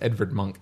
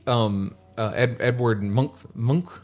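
First: The name is said with a 'v' sound. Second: The name is said with a 'w' sound.

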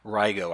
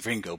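First: No n sound comes before the g. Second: An n sound comes before the g. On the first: The speaker calls it right. "but it's Rigo" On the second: The speaker calls it wrong. "I want to say Ringo"

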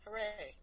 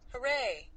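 First: It is said with almost no energy. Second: It is said with slight, flat energy.

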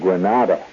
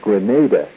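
First: It is said like the Spanish town's name. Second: It is said as the island's own name. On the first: The speaker calls it wrong. "Don't pronounce the island Granada. Granada is a town in Spain" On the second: The speaker calls it right. "It has nothing to do with Grenada"

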